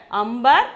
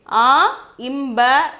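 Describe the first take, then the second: First: "ambar" put together as one word; joined pronunciation. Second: "a, imbar" with the a held apart from the m-b sound; broken into parts. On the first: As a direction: blend "ambar" smoothly with m before b. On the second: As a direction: split "a, imbar" to show the inner m. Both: Shown as a demonstration. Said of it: "we are pronouncing this word as".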